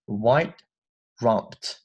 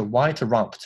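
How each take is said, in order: First: White rumped with a light held T and a gap after white; soft unreleased T. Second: White rumped with the T of white hit too hard; over-released T. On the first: Teacher models the correct reading, light T in white. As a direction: barely release the T in white, then rumped. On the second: Teacher shows students the mistake, heavy T in white. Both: Shown as a demonstration. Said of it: "不要读得太重了".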